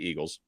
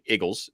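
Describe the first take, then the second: First: Eagles is said with a standard pronunciation. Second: Eagles is said in a Philadelphia accent, like "Iggles".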